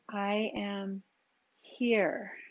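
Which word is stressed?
here. The word here carries the emphasis.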